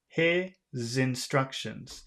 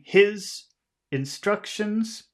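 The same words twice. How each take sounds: First: The final s links into the next word. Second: The two words are said separately. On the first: The speaker calls it right. "in English you do connect words" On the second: The speaker calls it wrong. "instead of saying"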